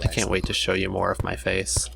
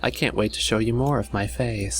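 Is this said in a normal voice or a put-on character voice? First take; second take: normal; put-on. First: It is said in the speaker's normal voice. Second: It is said in a put-on character voice.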